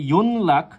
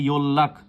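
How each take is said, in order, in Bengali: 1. মাঝের ধ্বনিটি N, তারপর L। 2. মাঝের ধ্বনিটি দীর্ঘ ডাবল L। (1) "সেটা সম্পূর্ণরূপে ভুল" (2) "এটা কিন্তু ইয়োল্লাখ উচ্চারিত হবে"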